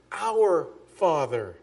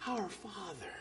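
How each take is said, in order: First: "Our" slowed and weighted, "Father" falling; stress on "Our". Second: "Our Father" spoken much softer, nearly breathed; hushed reverent "Our Father". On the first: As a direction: lean on "Our" slowly before "Father". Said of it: "notice he says". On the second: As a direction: murmur it reverently, with a falling close. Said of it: "start it this way". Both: Shown as a demonstration.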